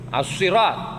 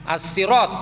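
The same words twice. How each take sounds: First: The s sound is emphatic, with a heavy quality. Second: The s sound is plain, with a light quality. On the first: "pakai shad" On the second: "Ada yang membaca sin"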